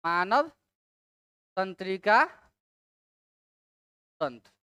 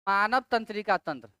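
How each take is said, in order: First: "मानव", "तंत्रिका", "तंत्र" each alone with long pauses; word-by-word dictation. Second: Said in the usual way. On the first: Shown as a demonstration. Teacher giving students a term to write, word-by-word dictation. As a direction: dictate "मानव तंत्रिका तंत्र" in separate words, dropping low on "तंत्र".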